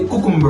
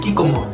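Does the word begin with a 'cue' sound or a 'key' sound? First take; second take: cue; key. First: The word begins with a 'cue' sound. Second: The word begins with a 'key' sound. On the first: This is how most people say it. "people say cucumber" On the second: This is the local colloquial way. "for us we say kikomo"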